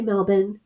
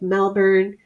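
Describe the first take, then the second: First: Melbourne is said with an Australian pronunciation. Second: Melbourne is said with an American pronunciation. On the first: "so I don't say Melbourne" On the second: "I'm American"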